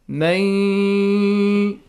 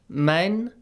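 First: The n merges into a long nasal y sound. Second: The word ends in a clear n sound. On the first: "Look how do I apply the rule idgham with ghunna and that I prolong it" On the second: "we have the word min"

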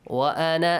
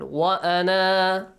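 First: The final vowel is short, running into the next word. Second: The final vowel is long, ending the phrase. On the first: The reader continues into the next word. "In case you read the next words together" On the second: The reader stops at this word. "If you stop at that word"

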